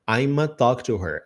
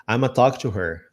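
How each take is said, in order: First: The words are reduced and blended together. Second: The same.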